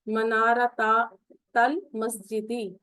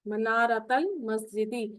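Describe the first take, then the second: First: The two words are said as separate parts. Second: The two words are run together without a break.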